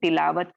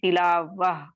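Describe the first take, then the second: First: The word ends with a clear t sound. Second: The word ends with a soft h sound. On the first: The word runs on into what follows. "Continuation ... हम इसको तिलावत कहते हैं" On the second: The word is said at a stop. "ताए मरबूता को आप इसको साकिन कर दें तो ये हा साकिना में तब्दील हो जाता है"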